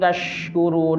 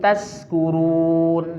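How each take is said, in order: First: The last word has an 'sh' sound. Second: The last word has an 's' sound. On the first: So that you become grateful people. The speaker calls it right. "kalau tashkurun shinnya lagi ibaca kalaban bener" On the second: So that you become drunkards. The speaker calls it wrong. "shin agak adin toh ibaca sin"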